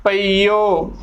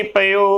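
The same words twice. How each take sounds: First: ਪਈਓ slowly, pa-ee-o with long ee; correct long ee. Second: ਪਈਓ reduced to pe-o; ਪਈਓ without the long ee, pe-o; wrong short form. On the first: Teacher modelling the right pronunciation, ਪਈਓ with long ee. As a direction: hold the ee in ਪਈਓ before the o. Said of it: "ਉਚਾਰਨ ਕਰਨਾ ਹੈ". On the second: Teacher warning against the misreading, ਪਈਓ as pe-o. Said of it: "ਪਈਓ ਗਲਤ ਉਚਾਰਨ ਹੈ". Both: Shown as a demonstration.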